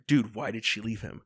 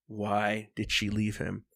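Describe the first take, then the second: First: Said in the usual way. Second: Slow, drawn-out question; deliberate, slowed-down retold question; slow emphatic repeat. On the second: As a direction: spell out the question word by word.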